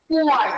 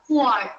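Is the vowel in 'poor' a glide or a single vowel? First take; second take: glide; single vowel. First: The vowel glides from oo into ah. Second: The vowel is one plain long oo sound. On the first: The speaker calls it right. "who ആയും കൂടെ പറഞ്ഞാൽ മാത്രമേ അത് correct ആവൂ" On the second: The speaker calls it wrong. "poor എന്നല്ല പറയാ"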